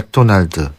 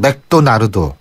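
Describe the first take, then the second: First: It is said with Korean pronunciation. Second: It is said with Japanese pronunciation. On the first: This is how it is said in Korea. "우리나라는" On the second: This is how it is said in Japan. "일본은"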